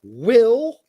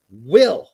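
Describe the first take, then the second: First: "will" lifted louder and rising; stress on will. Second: "Will" punched loud, held alone; stress on will. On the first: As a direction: lean on "will" as a promise. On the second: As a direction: hit "Will" hard, pause after. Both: Shown as a demonstration.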